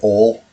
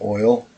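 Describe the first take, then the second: First: The word is said with a Southern one-vowel sound. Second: The word is said with a standard two-part vowel.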